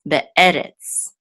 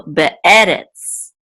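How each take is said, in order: First: "be'eretz" joined up, stress on the middle e; word repeated whole. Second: "be'eretz" slowly, with be, e and retz distinct; word sounded out. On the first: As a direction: say "be'eretz" as one connected word. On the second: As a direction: stretch out "be'eretz" for learners, stressing the middle e. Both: Shown as a demonstration. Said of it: "which will say retz".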